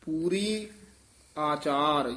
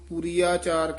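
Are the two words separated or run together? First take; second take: separated; together. First: The two words are said separately. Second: The two words are run together. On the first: The speaker calls it right. "ਨਖੇਰ ਕੇ ਪੜ੍ਹਨਾ" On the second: The speaker calls it wrong. "ਕਈ ਇਹਨੂੰ ... ਕਹਿ ਜਾਂਦੇ ਹਨ ਇਕੱਠਾ ਹੀ"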